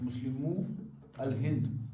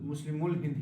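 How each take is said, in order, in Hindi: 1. 'al' उपपद अपने अलग अक्षर के रूप में बोला जाता है। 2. उपपद पहले वाले शब्द के साथ मिलाकर बोला जाता है। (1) "ये शो गसान प्रोनाउंस" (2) "अगर आप मिला के पढ़ेंगे"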